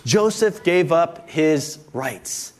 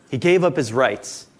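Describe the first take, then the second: First: Very slow, each word spaced; dictated slowly. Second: Said in the usual way. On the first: Shown as a demonstration. Pastor dictates the first point for notes, very slow. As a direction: read it slowly for note-taking. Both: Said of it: "you can write in the first blank there".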